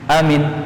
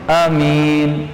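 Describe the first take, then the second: First: Both the first and second vowels are short. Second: The first vowel is short, the second long. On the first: It is a person's name. "Kalau dua-duanya pendek" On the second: It names someone who is protected. "Kalau hamzahnya pendek, mimnya yang panjang"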